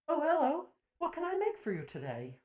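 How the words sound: It is said in a put-on voice for Aspen.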